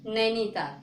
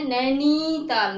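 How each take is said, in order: First: Said in the usual way. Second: नैनीताल with नी held long and loud; wrong drawn-out vowel. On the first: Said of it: "कैसे पढ़ते हैं". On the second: Shown as a demonstration. Teacher shows how नैनीताल is not said, नी stretched. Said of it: "नैनीताल नहीं".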